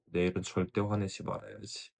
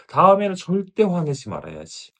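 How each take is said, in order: First: Much softer, tired resolve; quiet night vow. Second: Louder, higher, determined vow to herself; firm resolve. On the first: Mother resolving again that night, soft and weary. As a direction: murmur the promise to yourself at night. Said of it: "그리고 그날 밤 다시 결심하죠". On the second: Mother swearing she'll never get angry again, firm and loud. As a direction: swear it out loud like you mean it. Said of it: "그래서 더 강하게 결심합니다". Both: Retold or imitated.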